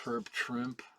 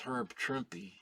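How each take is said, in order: First: The surname ends with a final p sound. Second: The surname ends with an extra vowel sound. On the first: The speaker calls it wrong. "a lot of people think it's Herb Trimp" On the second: The speaker calls it right. "it is Herb Trimpy, actually"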